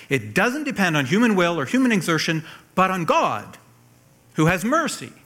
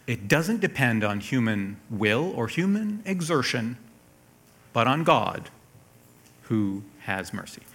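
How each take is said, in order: First: "It doesn't depend" driven home, higher and louder; insistent reading, hammering "but on God" higher and stronger; emphatic repeat. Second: Said in the usual way. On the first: Acted. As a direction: punch "human", "God" and "mercy" with raised pitch.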